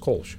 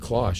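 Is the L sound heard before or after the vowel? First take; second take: after; before. First: The L sound comes after the vowel. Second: The L sound comes before the vowel. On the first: The speaker calls it right. "but the L is after the O" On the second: The speaker calls it wrong. "So it wouldn't be Klosh"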